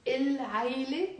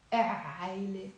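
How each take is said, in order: First: العيلة with a held, audible l, rising at the end; lam pronounced. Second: عيلة led in by a long e, no l; lam left silent. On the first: Teacher quizzing class again, lam clearly sounded in العيلة. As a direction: hold the l of il- in العيلة and lift the ending. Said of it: "we pronounce the lam". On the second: Teacher giving the wrong choice, lam silent before عيلة. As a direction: drop the article's l, gliding from e into عيلة. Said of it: "ما بنلفظ اللام". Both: Shown as a demonstration.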